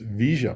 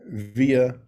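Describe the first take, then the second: First: The double L sounds like sh. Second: The double L sounds like a y.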